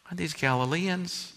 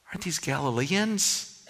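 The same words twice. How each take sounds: The two takes are said the same way.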